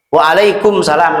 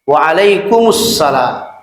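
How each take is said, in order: First: The m is said separately before the s. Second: The m is merged into the following s. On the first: The speaker calls it wrong. "Waalaikumsalam nggak ada" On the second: The speaker calls it right. "Jadi mimnya masuk ke sin. Itu idgham samsiyah"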